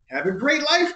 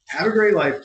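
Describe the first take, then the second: First: It is read in a warm, sincere tone. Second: It is said in a casual, dismissive tone. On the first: The writer truly wishes them well. "I know you mean that very sincerely" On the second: The speaker is brushing them off and leaving. "The kids part makes it sound kind of dismissive"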